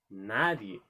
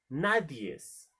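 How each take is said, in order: First: The word ends in a vowel, no s. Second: The word ends with an added s sound. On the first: The speaker calls it right. "se dice nadie" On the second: The speaker calls it wrong. "nadies no se pronuncia así"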